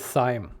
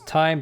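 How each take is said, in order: First: The word begins with a th sound. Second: The word begins with a plain t sound. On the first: This is the speaker's own pronunciation. "I pronounce it Thyme" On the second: This is the name's original pronunciation. "the original name is Time"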